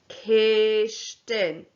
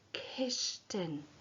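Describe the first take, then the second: First: The word is said slowly. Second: The word is said quietly. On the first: "Say it after me, [name]" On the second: "Now say it [name], quietly"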